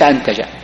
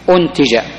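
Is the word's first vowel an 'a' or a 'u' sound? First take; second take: a; u. First: The first vowel is an 'a' sound. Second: The first vowel is a 'u' sound. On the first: The speaker calls it wrong. "ليس أنتج" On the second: The speaker calls it right. "تقرأ بالضم"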